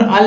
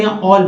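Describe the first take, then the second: First: "all" misread with an A vowel, "al"; wrong reading. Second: "all" with a rounded AW vowel; correct reading. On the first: Teacher rejecting a reading for learners, wrong reading. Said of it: "all नहीं बोलेंगे". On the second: Teacher giving learners the right sound, correct reading. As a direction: say "all" as "awl". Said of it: "all बोलेंगे". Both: Shown as a demonstration.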